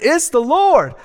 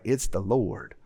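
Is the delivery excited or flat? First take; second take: excited; flat. First: It is said with excited, lively energy. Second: It is said flatly, without any energy. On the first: The speaker truly declares it with conviction. The speaker calls it right. "come on" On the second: The statement lacks conviction. The speaker calls it wrong. "it just doesn't ring true if you're just like"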